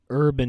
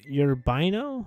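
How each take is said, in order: First: The name is said with two syllables. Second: The name is said with three syllables. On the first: The speaker calls it wrong. "I pronounced this totally wrong" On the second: The speaker calls it right. "it's pronounced uh, Urbino"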